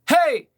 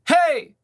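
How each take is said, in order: No difference in how they are said.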